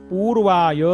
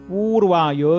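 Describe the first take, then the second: The two takes are said the same way.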